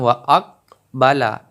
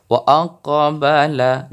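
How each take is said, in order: First: "wa aqbala" with the q swallowed and no echo; wrong way, no bounce. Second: "Wa aqbala" with the q in "aqbala" clearly rebounding; bounced qaf. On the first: Teacher showing the wrong reading, flat qaf. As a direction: say "wa aqbala" with a dead, unbounced qaf. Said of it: "bukan wa aqbala". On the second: Teacher showing the right reading, qaf bounced. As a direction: echo the qaf in "aqbala", a little slower. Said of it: "harus ada pantulan". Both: Shown as a demonstration.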